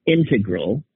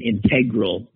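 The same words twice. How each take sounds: First: "integral" as the noun, IN-tuh-grul; first-syllable stress. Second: "integral" as in-TEG-rul; second-syllable stress. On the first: Stating proper usage for the noun, "integral" stressed on IN. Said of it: "for a noun". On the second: Stating the other usage, "integral" stressed on TEG. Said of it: "the proper usage is". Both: Shown as a demonstration.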